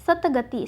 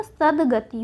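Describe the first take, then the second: First: सतगति as sat-gati; the mistaken hard t in सतगति; wrong form सतगति. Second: सदगति as sad-gati, drawn out; voiced d, slowly, in सदगति; correct form सदगति. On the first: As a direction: say सतगति with t before g. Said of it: "सतगति नहीं होता". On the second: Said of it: "सदगति होता है". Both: Shown as a demonstration.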